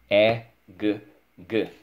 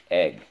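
First: E-g-g as separate sounds, loud E; sounding out. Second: Said in the usual way. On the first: Shown as a demonstration. Teacher models spelling egg for pupil, sounding out. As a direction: isolate each sound in E-g-g. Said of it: "Let's go". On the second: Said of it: "is the word egg".

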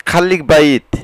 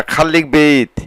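First: বাইত with an open "a" gliding into "i"; "ai" variant. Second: বেইত with an "e" gliding into "i"; "ei" variant. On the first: Teacher reviews the phrase for learners, বাইত said as "ba-eet". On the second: Teacher reviews the phrase for learners, বেইত said as "beyt". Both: Shown as a demonstration.

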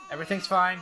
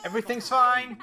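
First: Tense, contained insistence; strained reassurance. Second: High, loud, strained insistence; mounting panic. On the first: Gamer insisting everything's fine as it gets hectic, strained. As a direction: hold the panic in while claiming control. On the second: Gamer insisting everything's fine amid chaos, panicky. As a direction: repeat it as control slips away. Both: Pretend.

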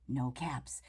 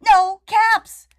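First: Dropped low and soft, disappointed; quiet no caps. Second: High and loud, exasperated; loud no caps. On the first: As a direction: sink into a soft let-down murmur. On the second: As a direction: burst out with it, fed up. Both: Acted. Peddler finds no caps.

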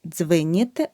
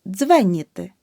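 First: Дзвеніти with и after дзв; the mistake in дзвеніти, и for е; wrong vowel demo. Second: Дзвеніти with a clear е after дзв; correct vowel demo. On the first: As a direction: say дзвеніти wrongly as "dzvy-nity". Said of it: "Не дзвеніти". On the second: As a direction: say дзвеніти as "DZVE-nity", first syllable punched. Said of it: "І чергується з е". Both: Shown as a demonstration.

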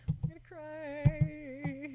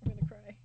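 First: Slow, drawn-out mock crying whine; mock wail. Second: Said in the usual way. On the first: To her viewers about a bad drawing class, a slow hammed-up mock wail. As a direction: stretch "cry" out like a fake sob.

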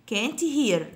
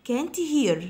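No difference in how they are said.

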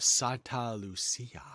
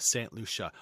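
First: Santa Lucia said SAHN-ta loo-SEE-a, a bit slower; Santa Lucia pronunciation. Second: Saint Lucia said with English Saint and LOO-sha; Saint Lucia pronunciation. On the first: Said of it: "Saint Lucia or". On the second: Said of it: "or Santa Lucia". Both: Shown as a demonstration.

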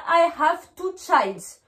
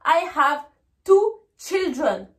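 First: Put-on slow "childs" with an s tacked on; slow wrong example ending on "childs"; wrong plural. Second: Put-on slow "children" with short i, chil-dren; teacher's slow model, "children" in two clear syllables; correct plural. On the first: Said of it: "Ne me dites pas". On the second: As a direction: separate out "two children" slowly. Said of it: "Il faut dire". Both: Shown as a demonstration.

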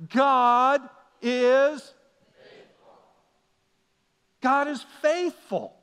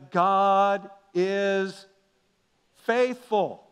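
First: God is faithful called out louder for the room; louder call and response. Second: Said in the usual way. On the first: Shown as a demonstration. Pastor leading the congregation, a louder God is faithful. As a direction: lead the congregation, God is faithful, loud and slow. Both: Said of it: "Let's try it again".

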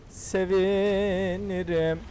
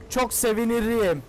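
First: A lingering playful repeat of Sevinirim; slow drawn-out sevinirim. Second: Said in the usual way. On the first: Shown as a demonstration. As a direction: stretch Sevinirim out very slowly.

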